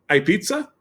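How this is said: It is said as a question, rising at the end.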